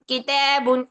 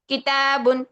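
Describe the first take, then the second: First: The long a leans toward an e sound. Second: The long a sounds open and full.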